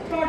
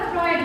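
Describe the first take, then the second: First: The vowel is a single plain 'o' sound. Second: The vowel glides like 'oy' in the name. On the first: The speaker calls it wrong. "ফ্রড না" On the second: The speaker calls it right. "উচ্চারণটা ফ্রয়েড হবে"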